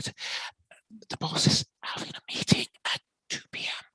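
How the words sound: It is said in a cautious, warning tone.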